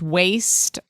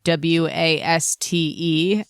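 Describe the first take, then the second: First: It is said as one ordinary word. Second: It is said as five separate letters. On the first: The speaker calls it wrong. "she says waste uh, instead of" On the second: The speaker calls it right. "an acronym, not waste"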